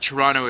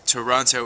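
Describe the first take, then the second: First: It is said the way locals say it. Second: It is said the way outsiders say it. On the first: The speaker is from there. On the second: The speaker is not from there.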